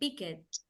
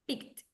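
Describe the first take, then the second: First: The ending is an extra syllable, pick-ed. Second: The ending is a short T sound. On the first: The speaker calls it wrong. "We don't say picked" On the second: The speaker calls it right. "The T, the T sound"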